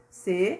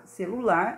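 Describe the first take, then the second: First: "Celular" in three parts with long pauses; syllable by syllable. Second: Said in the usual way. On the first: Shown as a demonstration. Teacher separating the word into syllables, split "Celular". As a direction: isolate every syllable of "Celular". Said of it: "aquele separado silabicamente". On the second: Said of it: "como a gente escreve".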